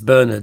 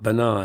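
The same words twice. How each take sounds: First: The name is said the English way. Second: The name is said a non-English way. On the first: The speaker calls it right. "in England, it's Bernard" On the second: The speaker calls it wrong. "not Bernard"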